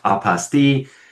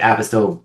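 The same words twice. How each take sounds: First: The word is said the French way. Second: The word is said in a non-French way. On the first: The speaker calls it right. "It is French. It is pronounced apostille" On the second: The speaker calls it wrong. "heard it one too many times pronounced incorrectly... self included, I say apostille quite often"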